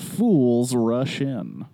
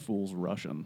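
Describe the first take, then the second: First: One word gets a marked, heavy emphasis. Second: The words run together with even emphasis. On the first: The speaker calls it wrong. "I guess I emphasized that wrong" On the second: The speaker calls it right. "It's just Fools Russian"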